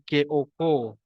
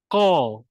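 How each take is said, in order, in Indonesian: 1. Bunyi k-nya adalah k depan yang biasa. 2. Bunyi k-nya dibuat dalam di kerongkong. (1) "dia bukan K-O-Ko" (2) "Dia ko"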